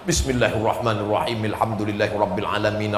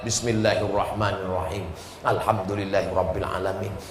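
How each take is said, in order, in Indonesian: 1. Ayat-ayatnya menyambung dalam satu napas panjang. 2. Ada jeda napas setelah setiap ayat. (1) "Tapi kalau qori kita nafasnya panjang" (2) "Paling bagus kalau satu nafas satu ayat"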